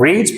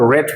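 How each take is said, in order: First: The vowel is long, sounding like 'reed'. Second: The vowel is short, sounding like 'red'. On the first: It is the present form of the verb. "First form में हम रीड pronounce करते हैं" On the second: It is the past or past participle form. "Second third form में हम रेड pronounce करते हैं"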